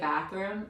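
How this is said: It is said in an American accent. "we say bathroom"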